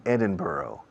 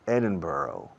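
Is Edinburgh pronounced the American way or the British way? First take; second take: American; American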